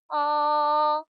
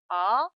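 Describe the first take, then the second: First: The pitch stays high and level throughout. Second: The pitch rises quickly from middle to high. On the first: "가장 높은 음에서 시작합니다. 높고 평평한 음이에요" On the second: "미의 음에서 단숨에 곡선을 타면서 솔의 음 높이로 올립니다"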